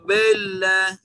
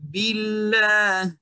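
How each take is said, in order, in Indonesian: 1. Vokal i diucapkan dengan bibir membulat. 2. Vokal i diucapkan dengan bibir merenggang.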